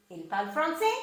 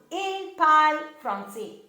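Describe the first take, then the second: First: "français" rising at the end as a question; rising question intonation. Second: Said in the usual way. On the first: Shown as a demonstration. Teacher giving an example of spoken French questions, rising intonation. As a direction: lift the voice on "français" to ask. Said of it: "as you raise your voice at the end of the sentence". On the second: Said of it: "as you raise your voice at the end".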